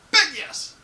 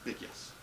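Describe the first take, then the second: First: Much higher, much louder big yes; emphatic yes. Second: Much softer, understated big yes; quiet yes. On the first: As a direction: shout your enthusiasm. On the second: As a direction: say it low, almost to yourself. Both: Real, not acted. Answering thigh highs question.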